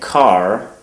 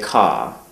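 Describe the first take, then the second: First: The final r is pronounced. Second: The final r is dropped, New England style.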